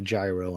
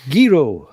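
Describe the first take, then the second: First: The word begins with a soft G sound. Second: The word begins with a hard G sound. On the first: This is how people say it locally. The speaker calls it wrong. "around here everybody calls him a gyro" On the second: This is how it is said in Greece. The speaker calls it right. "you do pronounce the G with a G"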